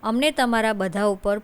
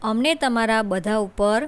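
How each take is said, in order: No difference in how they are said.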